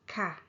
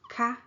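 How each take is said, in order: First: The word is said with a falling tone. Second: The word is said with a high tone. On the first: It ends a statement politely. "When you're making a statement, you say it with falling tone" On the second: It ends a question politely. "But when you are asking a question, you say it with high tone"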